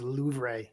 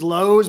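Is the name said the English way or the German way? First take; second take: German; English. First: The name is said the German way, sounding soft. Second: The name is said the English way, like 'lows'. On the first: The speaker calls it right. "the real way to say it in German is Louvre" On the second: The speaker calls it wrong. "We call Lowe's Lowe's"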